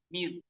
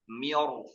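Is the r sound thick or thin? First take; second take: thin; thick. First: The r sound is thin and light. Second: The r sound is thick and heavy. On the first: "Asalnya bacaannya mir tipis" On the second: "maka ro-nya jadi tebal"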